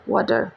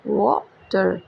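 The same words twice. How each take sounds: First: Said in the usual way. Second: वाटर broken in two, wa - ter; split into syllables. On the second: Shown as a demonstration. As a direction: pause briefly between the two syllables of वाटर. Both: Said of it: "टू syllables को indicate".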